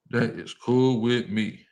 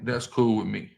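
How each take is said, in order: First: Each word spaced out; slow right down and separate every word; slow, deliberate. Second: Said in the usual way. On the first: Real, not acted. Answering what people say about him, slow and deliberate.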